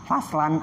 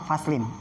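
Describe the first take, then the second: First: The word ends with the vowel a before n. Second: The word ends with the vowel i before n. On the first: "bisa fathah" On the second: "atau bisa kasroh"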